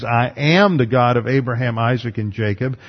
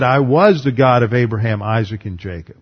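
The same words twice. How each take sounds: First: "am" leaned on, present tense made clear; stress on am. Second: "was" leaned on, past tense made clear; stress on was. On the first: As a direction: hit the word "am" to mark the present. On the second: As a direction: hit the word "was" to mark the past. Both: Shown as a demonstration. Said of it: "basing the doctrine of resurrection on the tense".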